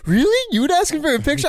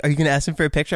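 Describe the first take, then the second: First: High-pitched mock disbelief; incredulous. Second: Said in the usual way. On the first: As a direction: imitate a friend astonished, voice shooting way up. Retold incredulous reaction to friend.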